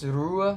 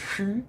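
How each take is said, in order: First: The word begins with an English r sound. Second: The word begins with a French throaty r. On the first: The speaker calls it wrong. "I pronounced this Rue before" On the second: The speaker calls it right. "but it's actually Hue"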